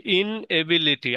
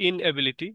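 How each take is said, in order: First: ইনএবিলিটি drawn out slowly in its parts; slow teaching breakdown of ইনএবিলিটি; syllable by syllable. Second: Said in the usual way. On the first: Shown as a demonstration. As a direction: sound out ইনএবিলিটি, holding ইন before এবিলিটি. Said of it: "এই সিলেবলের জ্ঞান". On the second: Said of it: "আইএন লাগিয়ে দিই".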